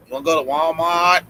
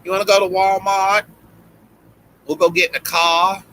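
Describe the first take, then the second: First: Put-on quick try at a Boston accent, first take; a light first go at Boston Vicky. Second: Put-on Boston accent, higher, with a country twang. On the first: Friends teasing him about his Boston accent, light Boston twang. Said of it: "That was the worst Boston accent ever". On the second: Doing Boston friend Vicky for the podcast hosts, twangy Boston accent. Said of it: "And she'd be like".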